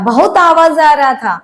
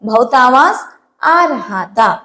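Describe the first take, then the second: First: The middle word is shortened to 'ra'. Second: The middle word is said in full as 'raha'.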